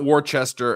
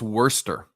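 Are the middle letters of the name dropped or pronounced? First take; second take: pronounced; dropped. First: Every written syllable is pronounced, middle letters included. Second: The middle letters are dropped, giving two short syllables. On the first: The speaker calls it wrong. "It's not Worcester" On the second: The speaker calls it right. "all those letters in the middle be damned"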